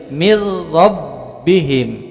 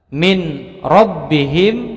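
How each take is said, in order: First: The n merges into a doubled r. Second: The n is pronounced before the r.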